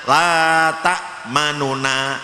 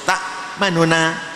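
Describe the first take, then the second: First: The middle vowel is said at full length. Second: The middle vowel is said quickly and faintly. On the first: "itu namanya biasa" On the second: "itu namanya ikhtilas"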